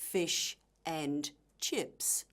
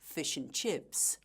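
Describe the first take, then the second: First: Each word is said separately as individual words. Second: The words are joined together as one chunk. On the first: The speaker calls it wrong. "we don't say" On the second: The speaker calls it right. "We say"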